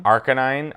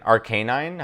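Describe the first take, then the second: First: Said in the usual way. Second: "Arcanine" with a long "cay" in the middle; alternative pronunciation. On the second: Shown as a demonstration. Unsure fan trying another way, "Arcanine" as ar-KAY-nine. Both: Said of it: "how do you say it".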